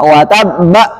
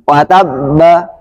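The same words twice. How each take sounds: First: A glottal catch ends the word. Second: No glottal catch ends the word. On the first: The speaker calls it wrong. "Ada hamzah sukun" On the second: The speaker calls it right. "itu baru hilang"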